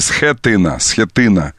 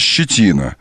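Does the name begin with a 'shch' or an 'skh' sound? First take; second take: skh; shch. First: The name begins with an 's' plus 'kh' sound. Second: The name begins with a soft 'shch' sound. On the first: The speaker calls it right. "А на самом деле «схетина» этот парень зовется" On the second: The speaker calls it wrong. "если это прочитать как «ще», то получится «щетина»"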